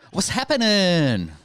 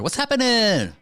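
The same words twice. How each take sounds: First: It sounds dull and unenthusiastic. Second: It sounds lively and excited.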